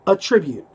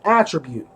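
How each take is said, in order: First: It is stressed like the verb form. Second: It is stressed like the noun form. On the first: It sounds like crediting something to a cause. The speaker calls it wrong. "And he kept saying" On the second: It names a quality someone has. The speaker calls it right. "if you have strength, that is an attribute"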